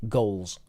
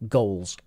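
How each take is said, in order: Both takes have the same delivery.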